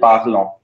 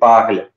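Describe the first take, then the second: First: The ending is sounded as a nasal vowel. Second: The ending is silent after the l sound. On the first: The speaker calls it wrong. "We do not say il, elle, parlant" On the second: The speaker calls it right. "It's only il, elle, parle"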